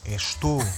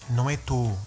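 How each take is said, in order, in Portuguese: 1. A primeira sílaba é pronunciada por completo, dizendo estou. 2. A primeira sílaba é omitida, dizendo 'tou.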